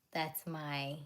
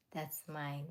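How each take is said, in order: Both takes have the same delivery.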